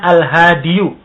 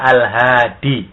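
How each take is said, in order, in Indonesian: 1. Kata itu berakhir dengan bunyi 'yu' yang ditambahkan. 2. Kata itu berakhir dengan bunyi panjang 'ee'. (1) "susah untuk mengucapkan al-hadiyu" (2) "untuk enaknya kita baca al-hadi"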